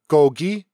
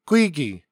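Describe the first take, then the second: First: It is said in standard Korean. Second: It is said in Gyeongsang dialect.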